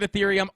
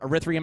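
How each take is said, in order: First: The word begins with an 'eth' sound. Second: The word begins with an 'er' sound.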